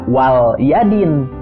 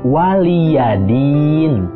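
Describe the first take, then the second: First: The L is closed with no following vowel. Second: The L is followed by a short i vowel. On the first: The speaker calls it wrong. "Jangan dibaca wal yadin" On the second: The speaker calls it right. "tapi waliyadin"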